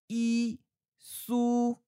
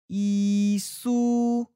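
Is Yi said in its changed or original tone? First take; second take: original; changed. First: Yi is said in its original citation tone. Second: Yi is said in its changed sandhi tone. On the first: "Yi Su changes to" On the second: "changes to Yi Su"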